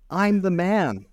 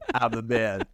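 First: It sounds like a desperate plea. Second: It sounds like a boastful brag.

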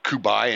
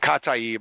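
First: The name sounds roughly like 'Kubai'. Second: The name sounds roughly like 'Kataib'. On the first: The speaker calls it wrong. "I had been calling it like Kubai" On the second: The speaker calls it right. "It's Kataib Hezbollah"

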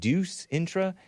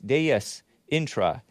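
First: The first word sounds like deuce, one syllable. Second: The first word is said with two syllables. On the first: The speaker calls it wrong. "I pronounced it Deuce Intra" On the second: The speaker calls it right. "It's Deus, D-E-U-S"

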